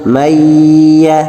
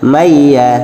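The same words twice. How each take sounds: First: The nasal sound is held long and unhurried. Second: The nasal sound is rushed and cut short. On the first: The speaker calls it right. "dibaca dengan sabar" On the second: The speaker calls it wrong. "Jangan sampai membacanya"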